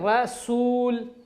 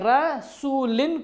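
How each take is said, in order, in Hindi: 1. शब्द बिना स्वर वाले 'l' की आवाज़ पर खत्म होता है। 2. शब्द 'in' की आवाज़ पर खत्म होता है।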